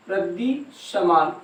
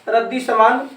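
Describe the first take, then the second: First: रद्दी समान slowed right down, softer; soft, drawn-out रद्दी समान for note-takers; slow dictation. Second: Said in the usual way. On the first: Shown as a demonstration. Repeats phrase slowly for dictation.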